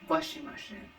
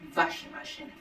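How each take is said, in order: First: The word begins with a W sound. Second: The word begins with a V sound. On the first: The speaker calls it wrong. "I would say" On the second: The speaker calls it right. "the W sound, which is fa, va"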